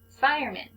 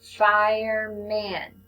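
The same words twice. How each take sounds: First: Said in the usual way. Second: "Fireman" drawn out slowly, every sound held; slow stretched reading. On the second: Shown as a demonstration. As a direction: read "Fireman" slowly, modeling for a beginner. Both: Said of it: "You read it".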